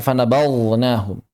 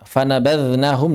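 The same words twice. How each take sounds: First: "fanabadznahum" with the dz thickened into a heavy zha; mistaken heavy zha. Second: "fanabadznahum" with a thin, light dhal buzz. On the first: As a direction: darken and draw out "fanabadznahum" as a misreading. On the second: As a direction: keep the dz in "fanabadznahum" thin, tongue tip at the teeth. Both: Shown as a demonstration. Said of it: "jangan dibaca".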